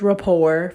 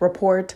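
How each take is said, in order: First: The final T is not pronounced. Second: The final T is clearly pronounced. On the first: The speaker calls it right. "it is rapport for y'all that don't know" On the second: The speaker calls it wrong. "I did not know the T was silent"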